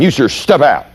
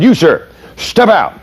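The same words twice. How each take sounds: First: Mildly sharp order; retold snap at the driver; irritated command. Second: Sharp, high, slow command; snapping order. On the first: Instructor replays his irritated order to the driver. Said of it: "what voice did you hear when I snapped". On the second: Retold or imitated. Young cop snaps at the driver, sharp and high. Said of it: "I just kinda snapped at him".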